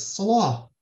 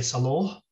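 First: "Salah" with a long open ah, drawn out; classical open vowel. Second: "Salah" said as sa-LOH, rounded final vowel; Hijazi o vowel. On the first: Showing what the reader does say, "Salah" with open ah. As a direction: stretch "Salah" on a clear ah, not o. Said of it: "he says Salah". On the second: Showing what the reader doesn't say, "Salah" as sa-LOH. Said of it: "He doesn't say Salah". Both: Shown as a demonstration.

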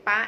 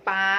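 First: ป๊ะ with a short, stopped a; short vowel. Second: ป๊า with a long open aa; long vowel. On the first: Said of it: "เป็นคำที่ลูกเรียกได้ง่าย เป็นคำสั้นๆ". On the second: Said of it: "เสียงจะลากยาวมากขึ้น". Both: Shown as a demonstration.

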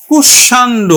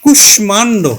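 First: কুষাণ্ড said with the m left out; কুষাণ্ড, the mistaken reading; wrong pronunciation. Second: কুষ্মাণ্ড with a clear ʂm cluster; কুষ্মাণ্ড, the Sanskrit reading; correct pronunciation. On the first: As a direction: show কুষাণ্ড as the wrong m-silent form. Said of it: "উচ্চারণ এটি হবে না". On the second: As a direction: sound the m in কুষ্মাণ্ড. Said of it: "তাহলে উচ্চারণ হবে কিন্তু". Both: Shown as a demonstration.

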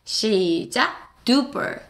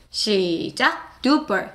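Both takes have the same delivery.

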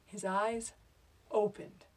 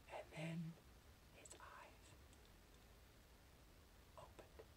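First: Said in the usual way. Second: Barely audible whisper with long pauses; almost silent, halting reveal; suspenseful whisper. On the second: Acted. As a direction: breathe it out word by word. Suspense before the climax.

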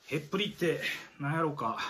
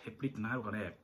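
First: Said in the usual way. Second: Softer, lower, wondering aloud; a soft musing repeat of the riddle. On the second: Shown as a demonstration. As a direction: say it again to yourself, softly. Repeats the quiz question musingly.

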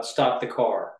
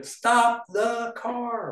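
First: Said in the usual way. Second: Very high, drawn-out mock yell; all-caps exclamation. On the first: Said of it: "you know, period". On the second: Shown as a demonstration. Editor exaggerating for a joke, all-caps mock yell. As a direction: stretch every word right out, pitched way up. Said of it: "all caps, three exclamation".

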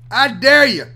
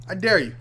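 First: Louder dare. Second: Said in the usual way. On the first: Real, not acted.

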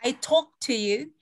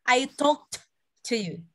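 First: "talked" said as "talk", slowly linked to "to"; no past ending on "talked"; present-tense sound. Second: "talked" with a released t, pause before "to"; sounded past ending. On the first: Teacher quizzing students, "talked" without its final t. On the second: Teacher quizzing students, "talked" ending in a separate t. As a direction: break off after the t of "talked". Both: Shown as a demonstration. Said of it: "Ada bedanya nggak?".

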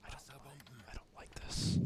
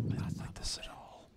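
First: Hushed nervous whisper. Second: Hushed nervous whisper, barely voiced. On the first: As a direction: breathe it out, uneasy. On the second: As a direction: murmur it in dread under your breath. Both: Real, not acted. Tense moment, whispering to self.

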